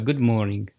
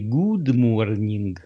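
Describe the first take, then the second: First: The vowel in good is short and relaxed. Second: The vowel in good uses pushed-forward lips. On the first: The speaker calls it right. "а good morning" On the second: The speaker calls it wrong. "Поэтому не good morning"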